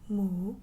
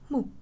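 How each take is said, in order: First: It is said in the second tone. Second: It is said in the short, sharp fourth tone. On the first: "That's number two" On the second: "And lastly, the original tone"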